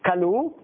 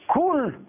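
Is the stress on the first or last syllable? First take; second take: last; first. First: The stress is on the last syllable. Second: The stress is on the first syllable. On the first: The kindnesses have not run out. The speaker calls it right. "קלו, מלרע" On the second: The kindnesses did not contain. The speaker calls it wrong. "רק בגלל הטעם שאני הפכתי ממלרע למלעל"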